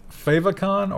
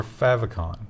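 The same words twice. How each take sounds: First: Favicon said "FAY-vih-con", long A; long-A pronunciation. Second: Favicon said "FAV-ih-con", short A; short-A pronunciation. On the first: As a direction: say favicon with FAVE at the start. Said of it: "fave would be favorite". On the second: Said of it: "always heard it pronounced as favicon". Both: Shown as a demonstration.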